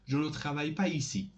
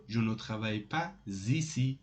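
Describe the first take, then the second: First: Said in the usual way. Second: "pas ici" linked with a z sound, "pa-zici"; with liaison. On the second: Shown as a demonstration. Teacher showing the alternative negative sentence, with liaison.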